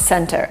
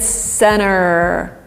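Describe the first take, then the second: First: The T sound after the N is pronounced. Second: The T sound is dropped and the N lengthened. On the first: This is the British way of saying it. "not center. And center is very British" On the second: This is the American way of saying it. "so T is substituted with the, this longer N and you get center"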